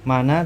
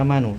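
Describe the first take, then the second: First: The word ends with an added a vowel. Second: The word ends with an added u vowel. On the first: "Tidak bisa mana" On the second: "tidak bisa manu"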